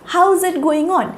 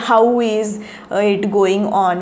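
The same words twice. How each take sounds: First: 'How is' blends into one word, 'how's'. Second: 'How' and 'is' are said as separate words. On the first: The speaker calls it right. "हाऊ इजचा एक शब्द झाला आहे हाऊज" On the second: The speaker calls it wrong. "Typical कधी कधी चुकीचे आपण उच्चार करतो"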